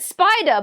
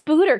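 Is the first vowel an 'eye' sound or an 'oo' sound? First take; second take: eye; oo. First: The word is said with an 'eye' vowel. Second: The word is said with an 'oo' vowel. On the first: It is the standard pronunciation. "it's supposed to be said spider" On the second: It is a playful, joking pronunciation. "we're going to say it this way"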